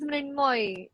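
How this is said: Said with 'Mrin' and ending in 'moy'. "So in Bengali, it becomes Mrinmoy"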